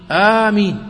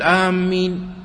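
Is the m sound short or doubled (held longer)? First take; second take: short; doubled. First: The m sound is short and light. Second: The m sound is doubled and held. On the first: It means: answer our prayer. The speaker calls it right. "والميم خفيفة فيهما" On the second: It means: those who are heading toward. The speaker calls it wrong. "لا تقول آمين، تشدد الميم"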